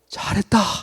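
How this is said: It is said in a bright, warm tone. "정말 밝은 표정으로"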